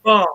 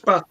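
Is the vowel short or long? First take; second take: long; short. First: It has a long southern vowel. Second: It has a short northern vowel.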